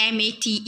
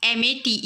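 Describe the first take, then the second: No difference in how they are said.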